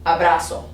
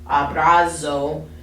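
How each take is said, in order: First: The z is a soft s sound. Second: The z is a buzzing z sound. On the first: The speaker calls it right. "It's zapato, abrazo" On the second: The speaker calls it wrong. "We don't do Z ... So it's not zapato or abrazo"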